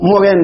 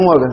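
First: مورين ending in a sounded "-in"; with tanween ending. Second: مور stopped on the r, no "-in" after it; pausal ending. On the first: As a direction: say مورين as "moo-rin". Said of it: "هناك يقول حذفت الياء". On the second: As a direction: say مور as "moor". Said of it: "لأن الوقف ليس علة". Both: Shown as a demonstration.

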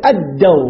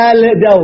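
First: الدو said as ad-daw, lam merged into a doubled d; lam assimilated. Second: الدو said as al-daw, the l sounded clearly; lam pronounced. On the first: Teacher giving students the right reading, ad-daw with the d doubled. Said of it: "نقول الدو". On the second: Teacher showing students the wrong reading, al-daw with the l sounded. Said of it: "ما نقول الدو". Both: Shown as a demonstration.

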